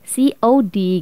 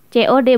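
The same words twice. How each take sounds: First: The letters are spelled with English letter names. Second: The letters are spelled with Indonesian letter names. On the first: The speaker calls it wrong. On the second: The speaker calls it right. "bacanya kita tetap bahasa Indonesia"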